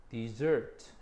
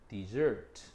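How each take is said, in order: No difference in how they are said.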